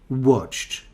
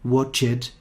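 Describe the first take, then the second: First: The ending adds no extra syllable. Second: The ending is said as an extra syllable. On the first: The speaker calls it right. "It's like worked" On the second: The speaker calls it wrong. "that's different from invited. You don't say watched"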